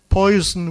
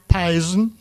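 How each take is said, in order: First: The first vowel is an 'oy' sound. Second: The first vowel is an 'eye' sound. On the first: This is the current standard pronunciation. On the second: This is the creole and older British pronunciation.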